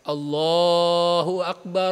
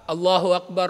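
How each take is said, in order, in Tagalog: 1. Mahaba at mabagal ang pagbigkas ng mga patinig. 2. Maikli at mabilis ang pagbigkas ng mga patinig. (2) "Ganun na siya. Maikli na"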